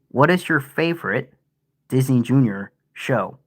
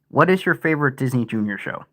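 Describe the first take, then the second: First: It is read choppily, broken into separate pieces. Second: It is read smoothly as one continuous sentence.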